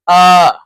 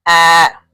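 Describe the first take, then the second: First: "ah" as the open vowel starting octopus; a loud, open, back "ah"; correct O sound. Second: "ah" as the flat A of cat; wrong O sound. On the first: Teacher correcting the O, open O sound. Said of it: "Not like ah". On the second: Teacher showing what O is not, wrong O sound. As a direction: say "ah" with the front vowel of cat. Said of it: "Not like". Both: Shown as a demonstration.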